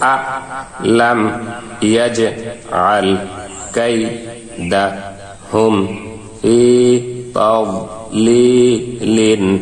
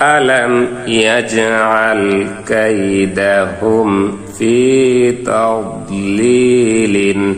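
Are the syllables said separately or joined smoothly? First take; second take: separately; joined. First: Each syllable is said separately with breaks. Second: The syllables are joined in one smooth flow. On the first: "এখন আমরা ভাঙ্গা ভাঙ্গা উচ্চারণ করব।" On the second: "গোটা আয়াত সম্পূর্ণ আয়াত মিলিয়ে পড়ব"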